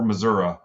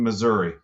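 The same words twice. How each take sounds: First: Missouri is said an alternative regional way. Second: Missouri is said the speaker's common way.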